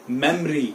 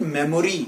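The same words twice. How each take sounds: First: Memory in two syllables, mem-ree; correct pronunciation. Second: Memory in three syllables, me-mo-ree; wrong pronunciation. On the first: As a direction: drop the middle o in memory. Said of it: "it is". (memory का सही उच्चारण, मेम-री) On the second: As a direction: sound the middle o in memory. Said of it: "It is not". (memory का गलत उच्चारण, मे-मो-री) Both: Shown as a demonstration.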